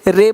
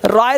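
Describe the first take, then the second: First: The vowel sounds like 'ay'. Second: The vowel sounds like 'eye'. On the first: The speaker calls it right. "रे पढ़ते हैं" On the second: The speaker calls it wrong. "राय नहीं पढ़ते"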